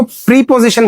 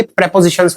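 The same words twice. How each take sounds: First: प्रीपोजिशन with a long "pree" first syllable; mispronounced preposition. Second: प्रीपोजिशंस with short "prep" opening, not "pree"; corrected pronunciation. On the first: Retold or imitated. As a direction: imitate pupils saying "pree-position" for प्रीपोजिशन. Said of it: "कुछ बच्चे इसको प्रीपोजिशन बोलते हैं". (प्रीपोजिशन का गलत उच्चारण, "प्री" खींचकर) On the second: Shown as a demonstration. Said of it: "ये प्रीपोजिशंस होते हैं". (प्रीपोजिशंस को "प्रेपोजिशंस" जैसा बोलें)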